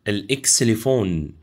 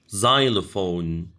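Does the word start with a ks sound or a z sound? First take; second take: ks; z. First: The word starts with a ks sound. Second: The word starts with a z sound. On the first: "بننطقها كده في العربي" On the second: "بالإنجليش تنطق الإكس ز"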